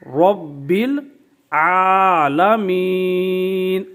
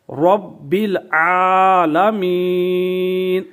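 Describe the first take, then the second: First: العالمین drawn out very slowly; slow recitation. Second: Slow chanted رب العالمین with long عا; تجوید کے ساتھ تلاوت; Quranic recitation. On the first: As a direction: chant the long عا in العالمین. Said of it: "اس طرح آپ نے کھڑی حرکت کو دراز کرنا ہے". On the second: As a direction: recite it slowly, drawing out the vowel. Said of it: "تو آپ پڑھیں گے". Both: Shown as a demonstration.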